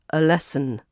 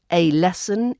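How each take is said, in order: First: "a lesson" with A reduced to uh; schwa article. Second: "A lesson" with A said as "ay"; full letter A. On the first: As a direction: link an unstressed uh into "lesson" in "a lesson". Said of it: "we also use a schwa sound". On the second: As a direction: give the A of "A lesson" its letter name. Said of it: "when we use the letter A". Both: Shown as a demonstration.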